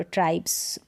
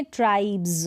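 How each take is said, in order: First: ट्राइब्स ending in voiceless ps; wrong s ending. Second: ट्राइब्स ending in a buzzing z; final z sound in ट्राइब्स; correct z ending. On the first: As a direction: say ट्राइब्स as "tripes", lower, with a hissed s. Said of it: "ट्राइब्स, स नहीं बोल रहे". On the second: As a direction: say ट्राइब्स as "tribe-z", with voiced bz. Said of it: "ज बोल रहे हैं". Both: Shown as a demonstration.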